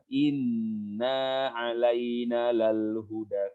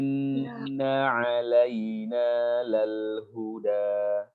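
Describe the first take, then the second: First: The first vowel is long, the second short. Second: The first vowel is short, the second long. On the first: The speaker calls it wrong. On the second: The speaker calls it right.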